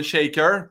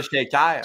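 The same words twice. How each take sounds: First: Said in the usual way. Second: Shaker ending in an open "-kar"; local pronunciation. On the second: Retold or imitated. Everyone in Chicoutimi names the bar, local pronunciation of Shaker. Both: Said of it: "tout le monde disait le Shaker".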